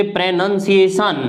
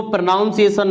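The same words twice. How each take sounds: First: प्रोनंसिएशन said slowly with a short "nun", the right way; slow careful model of प्रोनंसिएशन, no "aun"; correct pronunciation. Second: प्रोनाउंसिएशन with the wrong "naun" sound, shown as a mistake; teacher voices प्रोनाउंसिएशन with "aun" as the common error; wrong pronunciation. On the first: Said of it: "इसको प्रोनाउंसिएशन नहीं बोलते". (सही उच्चारण: प्रोनंसिएशन, धीरे और छोटे "नन" के साथ) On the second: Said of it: "इसको ... नहीं बोलते". (गलत उच्चारण: प्रोनाउंसिएशन, "नाउन" के साथ) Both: Shown as a demonstration.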